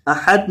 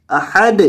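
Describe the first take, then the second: First: احد with a still, unbounced dal; wrong ahad. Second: احد with a clear bounce on the dal; bounced dal. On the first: Teacher showing the common mistake. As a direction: say احد without the bounce. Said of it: "احد نہیں". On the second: Teacher demonstrating the correct احد. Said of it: "دال کو ہلائیں". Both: Shown as a demonstration.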